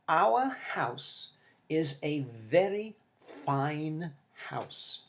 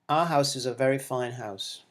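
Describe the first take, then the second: First: Every sound is pronounced fully and separately. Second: Sounds are reduced, with a weak schwa. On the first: This is how textbook recordings sound. The speaker calls it wrong. "Words are enunciated with excessive precision" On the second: This is how people speak naturally. The speaker calls it right. "the fast speech changes which happen in this pronunciation"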